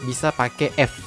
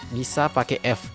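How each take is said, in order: The two takes are said the same way.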